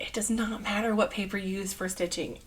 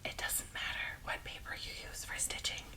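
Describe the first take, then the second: First: It is said louder, with more force. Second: It is said at a normal, ordinary volume.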